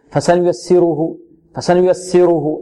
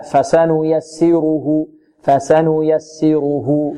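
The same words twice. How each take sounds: First: Quicker student-error recitation; rushed vowels. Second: Slow corrected recitation; full vowel measure. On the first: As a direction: recite فسنيسره with the short vowels hurried through. (إسراع خاطئ في الحركات) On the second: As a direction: recite فسنيسره unhurried, giving every vowel its full length. (تلاوة متمهلة دون اختلاس) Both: Shown as a demonstration. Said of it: "البعض ربما يسرع فيها".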